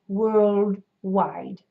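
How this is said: Said with a closed jaw and rounded lips. "a much more closed jaw, rounded lips"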